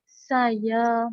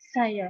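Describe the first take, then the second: First: The word is somewhat drawn out. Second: The word is said very briefly. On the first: "tekanan kata agak agak panjang" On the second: "tekanan kata pendek sekali"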